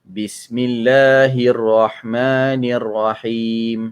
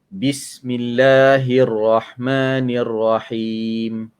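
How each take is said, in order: The two takes are said the same way.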